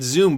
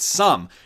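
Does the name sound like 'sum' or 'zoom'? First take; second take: zoom; sum. First: The name is said like 'zoom'. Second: The name is said like 'sum'. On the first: The speaker calls it wrong. "I keep calling it Zoom" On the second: The speaker calls it right. "Sum is how it's pronounced"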